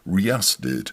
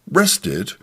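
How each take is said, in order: First: It is said with Swedish pronunciation. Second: It is said like an English word. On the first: The speaker calls it right. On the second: The speaker calls it wrong.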